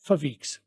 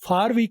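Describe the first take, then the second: First: Only the f of 'for' is heard, joined on. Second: The word 'for' is said fully with its vowel. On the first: The speaker calls it right. "फार का ओ आर को हम silent कर देते हैं, बल्कि बहुत तेज बोलते हैं" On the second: The speaker calls it wrong. "फार week की बजाय"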